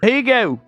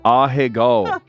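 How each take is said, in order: First: It is said with a mocking American pronunciation. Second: It is said with a Japanese-style pronunciation. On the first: The speaker calls it wrong. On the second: The speaker calls it right.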